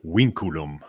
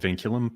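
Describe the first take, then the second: First: The word begins with a W sound. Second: The word begins with a V sound. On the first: This is the classical Latin pronunciation. "in proper old Latin, the V's are like W's" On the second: This is the speaker's everyday pronunciation. "I call it vinculum"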